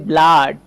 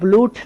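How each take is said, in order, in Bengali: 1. স্বরধ্বনিটি একটি হ্রস্ব 'uh' ধ্বনি। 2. স্বরধ্বনিটি একটি দীর্ঘ 'oo' ধ্বনি। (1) "এটা উচ্চারণ করতে হবে ব্লাড" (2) "এটা কিন্তু ব্লুট না"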